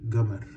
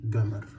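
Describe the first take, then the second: First: It begins with a hard g sound. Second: It begins with a hard g sound.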